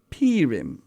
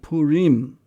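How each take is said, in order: First: It has the Central European pronunciation. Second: It has the Eastern traditional pronunciation. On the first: "Some Central European communities even call it" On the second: "In the Eastern tradition, it is called"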